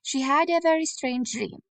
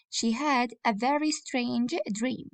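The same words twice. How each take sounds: First: Said in the usual way. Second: Dictating. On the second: Shown as a demonstration. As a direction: read it slowly for copying. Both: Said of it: "copy this sentence".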